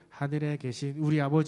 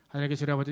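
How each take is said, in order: First: The phrase is read slowly, each word distinct. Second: The phrase is read quickly and run together. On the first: The speaker calls it right. "이렇게 천천히 또박또박" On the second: The speaker calls it wrong. "말고"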